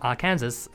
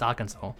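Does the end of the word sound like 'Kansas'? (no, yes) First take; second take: yes; no. First: The ending is said like the word Kansas. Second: The ending does not sound like Kansas. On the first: The speaker calls it wrong. "because it's spelled Arkansas. And there's like Kansas" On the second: The speaker calls it right. "It's Arkansas"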